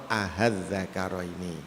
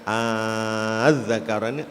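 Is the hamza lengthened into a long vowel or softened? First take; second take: softened; long vowel. First: The hamza is softened, heard as a light h. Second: The hamza becomes a long drawn-out vowel. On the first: "boleh dibaca apa e, tashil" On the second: "boleh dibaca ibdal"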